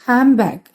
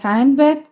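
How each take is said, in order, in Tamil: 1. முதல் வார்த்தை 'm' ஒலியில் முடிகிறது. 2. முதல் வார்த்தை தெளிவான 'nd' ஒலியில் முடிகிறது. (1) "பிகம்ஸ் ஹேம் பேக்" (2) "ஹேண்ட் பேக்குன்னு நம்ம சொல்ல மாட்டோம்"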